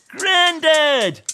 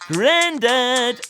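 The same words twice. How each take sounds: First: It is shouted a little louder. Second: It is shouted at a moderate loudness.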